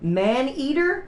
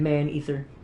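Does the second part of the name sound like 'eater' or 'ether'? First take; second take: eater; ether. First: The second part sounds like 'eater'. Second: The second part sounds like 'ether'. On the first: The speaker calls it right. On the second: The speaker calls it wrong.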